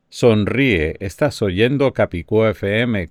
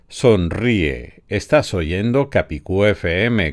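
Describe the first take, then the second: First: The voice has strong noise reduction applied. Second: The voice has no noise reduction applied. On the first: "Voice Focus al 75%" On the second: "sin ningún efecto todavía"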